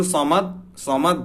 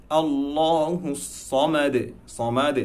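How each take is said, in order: First: সমাদ cut short on a "t", higher; wrong, no qalqalah. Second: Slow chanted আল্লাহু সমাদ, heavy "law" and "saw"; sung, draw out আল্লাহু, bounce সমাদ's final "de"; sung, correct recitation. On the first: Teacher showing a mistake, abrupt সমাদ. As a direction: stop সমাদ dead with no echo. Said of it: "এভাবে বললে হবে না". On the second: Teacher demonstrating the verse, slow chanted recitation. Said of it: "আমাদের পড়তে হবে". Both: Shown as a demonstration.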